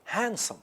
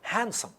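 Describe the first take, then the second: No difference in how they are said.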